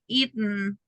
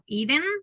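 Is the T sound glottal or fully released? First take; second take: glottal; released. First: The T is a glottal stop before the n. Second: The T is fully released before the n. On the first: The speaker calls it right. "like just n sound at the end / glottal pronunciation" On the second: The speaker calls it wrong. "It's not eaten"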